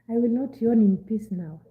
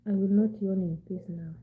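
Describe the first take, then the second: First: Loud, emphatic complaint; loud protest. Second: Said in the usual way. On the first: Real, not acted. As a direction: declare it loudly. Protesting teasing about yawning.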